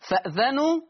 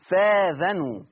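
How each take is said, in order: First: A glottal stop is heard before the vowel. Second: A long a vowel replaces the glottal stop.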